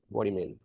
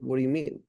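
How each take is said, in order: First: It is said flatly, with no warmth. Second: It is said warmly, with a caring tone. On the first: The speaker seems to be arguing with the other person. The speaker calls it wrong. "if you're just deadpanning" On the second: The speaker seems curious about the other person's concern. The speaker calls it right. "If you have a concern tone"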